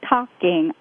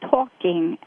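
First: The first vowel is a flatter sound without 'aw'. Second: The first vowel is a rounded 'aw' sound. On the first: This is the regional way from the speaker's childhood. "I say talking. I don't anymore because I learned how to make the awe sound" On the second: This is how the other person says it. "he says talking"

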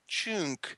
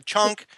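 First: It is said softly in an imitated, elegant accent. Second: It is said bluntly in the speaker's own accent. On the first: The speaker calls it right. "it sounds lovelier" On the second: The speaker calls it wrong. "very kind of callous, very kind of on the nose"

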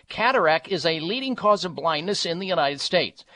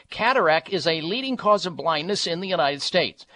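No difference in how they are said.

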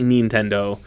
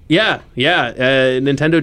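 First: It is said with a Japanese pronunciation. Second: It is said with an American pronunciation. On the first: "technically, it probably should be Nintendo. Based on the way that Japanese pronunciation works" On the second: "But we're American"

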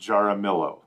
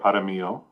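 First: The surname is pronounced the British way. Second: The surname is pronounced the local way. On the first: This is how a British speaker says the name. "being the staunch British person that she was" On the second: This is how people in the area say the name. "as we say here"

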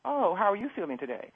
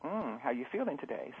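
First: Said in a polite, formal tone for a boss. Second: Said in a soft, intimate tone for a lover.

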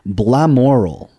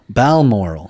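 First: The word begins with the sounds 'blam'. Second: The word begins with the sounds 'bal'. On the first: The speaker calls it wrong. "Oops, no" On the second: The speaker calls it right. "Balmoral is actually"

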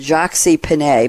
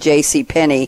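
First: The first part is said as French 'Jacques'. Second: The first part is spelled out as two letters. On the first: "we use the French pronunciation" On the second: "but it's really J.C"

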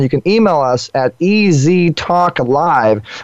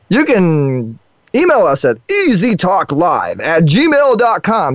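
First: It is said in his ordinary voice. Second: It is said in a radio announcer voice.

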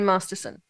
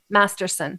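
First: It is said in an Australian accent. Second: It is said in a Californian accent. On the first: "I am Australian, fool" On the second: "Can you say it like you're from California?"

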